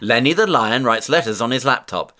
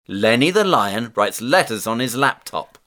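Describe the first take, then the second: First: The sentence is spoken at a very fast pace. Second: The sentence is spoken at a fast pace. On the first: "Encore plus vite!" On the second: "plus vite!"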